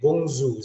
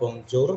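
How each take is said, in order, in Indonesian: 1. J dibaca seperti z. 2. J tidak dibaca seperti z. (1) "tapi bonjour. Seperti ini J-nya itu seperti mengucapkan huruf Z" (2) "atau bonjour ya"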